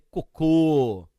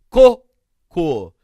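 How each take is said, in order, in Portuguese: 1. A tônica está na última sílaba. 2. A tônica está na primeira sílaba. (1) "Aqui é cocô" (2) "Paroxítona"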